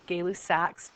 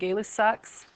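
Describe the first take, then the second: First: The last syllable sounds like "sack". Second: The last syllable sounds like "sucks". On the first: The speaker calls it right. "it really should say Gay-Lus sacs" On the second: The speaker calls it wrong. "I'm saying it wrong"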